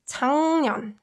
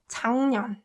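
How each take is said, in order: First: The first syllable ends in an ng sound. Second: The first syllable ends in an ng sound.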